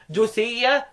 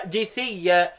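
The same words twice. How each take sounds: First: جثيا opened with a u vowel, "juthiyya"; recited جثيا starting on "ju"; damma reading. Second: جثيا opened with an i vowel, "jithiyya"; recited جثيا starting on "ji"; kasra reading. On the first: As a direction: say جثيا with damma on the first letter. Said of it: "بالضم". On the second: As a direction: say جثيا with kasra on the first letter. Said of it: "يقرأوا بالكسر". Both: Shown as a demonstration.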